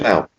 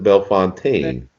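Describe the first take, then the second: First: The second part sounds like 'fountain'. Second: The second part sounds like 'fontaine'. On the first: This is how locals in Ohio say the town name. "We're we're screwed up in Ohio" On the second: This is how outsiders say the town name. "Most people pronounce it Bellefontaine"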